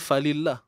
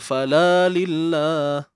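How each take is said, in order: First: 'Fa' runs straight into 'lillah' without 'la'. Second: An extra long 'la' syllable follows 'fa'. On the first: It means for God. The speaker calls it right. "Sebenarnya falillah" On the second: It means not for God. The speaker calls it wrong. "Takut orang terbaca fala lillah"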